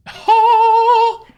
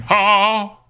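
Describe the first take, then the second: First: High, loud, drawn-out cry; plain exclamation without accent. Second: Drawn-out cry attempted in a Texan accent. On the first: Pretend. Streamer reacts to the credits, high loud cry without the accent. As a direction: let out a long, high whoop. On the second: Shown as a demonstration. Streamer tests whether the cry works, Texan accent. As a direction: try the whoop with a Texan twang. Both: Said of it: "I can't do that in action".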